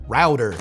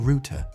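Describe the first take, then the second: First: American accent, the T sounds like a D. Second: British accent, with a clear T sound. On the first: "the T in router becomes a D" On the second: "In Britain"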